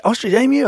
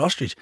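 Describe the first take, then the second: First: Higher, rising "Ostrich emu?"; confused colleague asking about boots; puzzled question. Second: Plain matter-of-fact correction; flat correction. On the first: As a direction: ask as if "emu" must be meant. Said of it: "She goes". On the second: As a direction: calmly correct her. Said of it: "I said". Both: Retold or imitated.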